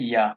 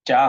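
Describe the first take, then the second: First: "ইয়া" with a y glide, as in German ja; correct German J. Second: "যা" with a hard English j, louder; wrong J sound. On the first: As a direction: say "ইয়া" starting like English Y. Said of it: "উচ্চারণ হবে ইয়া". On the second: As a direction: show the mistake "যা" as "jaa". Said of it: "যা হবে না". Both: Shown as a demonstration.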